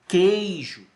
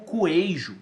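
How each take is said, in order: First: The k goes straight into the vowel. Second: A w-like vowel sound follows the k. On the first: The speaker calls it right. "Eu digo que, queijo" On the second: The speaker calls it wrong. "Eu não digo coejo"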